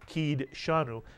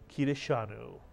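First: The d joins the next consonant with no vowel. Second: A short vowel is heard after the d. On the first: The speaker calls it wrong. "We wouldn't say ki deshanu" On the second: The speaker calls it right. "the dalet has a pronounced shva. ... the actual pronunciation of this word"

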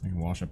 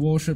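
First: Wash is said without an r sound. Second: Wash is said with an r, like warsh. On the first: This is the form the speaker uses most of the time. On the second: This is the regional form the speaker can use but rarely does.

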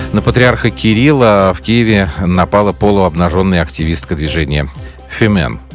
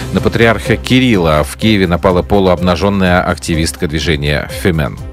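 The two takes are said the same way.

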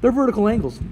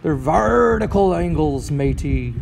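First: It is said in a normal speaking voice. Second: It is said in a put-on pirate voice.

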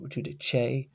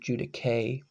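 First: It is pronounced the Italian-influenced way. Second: It is pronounced the classical Latin way. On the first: "got in when Latin was turning into Italian, pronounced more judice" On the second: "probably judice in actual Latin"

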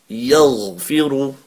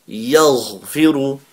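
The two takes are said the same way.

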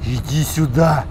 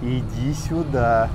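First: It is spoken in a tense hiss. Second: It is spoken quietly in a low voice. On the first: "Он в третий раз уже аж шипит" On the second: "говорит охотнику в полголосу"

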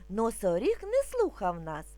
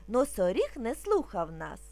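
No difference in how they are said.

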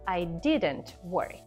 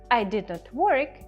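First: Did and not are contracted into didn't. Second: The words did and not are said separately. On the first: "носії мови люблять все скорочувати" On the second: "I did not work звучить як"

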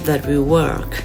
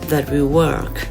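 First: 'That' and 'will' are said as two full words. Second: 'That' and 'will' are said as two full words.

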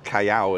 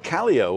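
First: The name is said with a Spanish-style pronunciation. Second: The name is said with an English-style pronunciation. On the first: This is how the locals say it. "as they'll pronounce it" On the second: This is how most visitors say it. "everybody calls it Calio"

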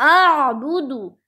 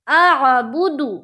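Both takes have the same delivery.

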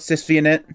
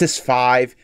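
First: The V is said as the letter vee. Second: The V is said as the number five. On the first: The speaker calls it wrong. "I know I call it SysvInit" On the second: The speaker calls it right. "it's Sys5"

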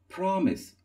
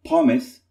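First: The R sound is pronounced. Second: The R sound is not pronounced. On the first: The speaker calls it right. "it is promise" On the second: The speaker calls it wrong. "It is not promise"

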